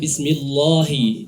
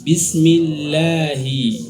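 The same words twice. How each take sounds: First: The L is heavy and thick. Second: The L is light and thin. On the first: The speaker calls it wrong. "Tidak boleh" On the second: The speaker calls it right.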